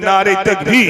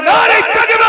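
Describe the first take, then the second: First: Loud call without raised pitch; first rallying shout, voice kept down in pitch; loud takbir call. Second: Full-force high rallying shout; even louder takbir. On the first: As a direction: lead the crowd in a strong, low-pitched chant. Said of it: "একটু জোরে তাকবীর দেন". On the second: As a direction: belt out the slogan at the top of your voice. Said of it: "আরো জোরে". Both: Real, not acted.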